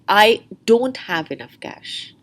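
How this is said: The stress falls on the word don't. "Or the stress could be on don't"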